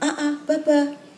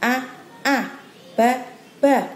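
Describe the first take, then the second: First: It is read quickly, syllables run straight together. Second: It is read slowly, one letter at a time. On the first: The child can already read it directly. "Ada yang dia cepat langsung" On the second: The child still needs time to think. "boleh dengan apa satu huruf satu huruf"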